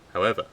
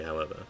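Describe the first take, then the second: First: "However," blurted loud as a new sentence opener; misread However. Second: "however." tucked softly onto the end of the sentence; corrected however. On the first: Reader wrongly opening a new sentence with a loud "However,". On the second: Reader fixing the line, softly tacking on "however.". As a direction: let "however." trail off quietly as a tail. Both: Shown as a demonstration. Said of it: "I keep on doing that".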